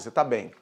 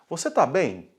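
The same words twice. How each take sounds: First: It is said with a statement intonation. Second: It is said with a questioning intonation. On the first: The speaker is assuring the person they are okay. "se a pessoa já tá bem, fala assim" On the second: The speaker is asking whether the person is okay. "É uma pergunta"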